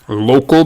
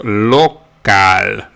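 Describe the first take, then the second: First: It is said with English vowel sounds. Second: It is said with Spanish vowel sounds.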